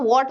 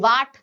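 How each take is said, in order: First: The vowel is a rounded 'o' sound. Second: The vowel is an open 'aa' sound. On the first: The speaker calls it right. "मैं वॉट बोलूंगी" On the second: The speaker calls it wrong. "वाट नहीं बोलूंगी"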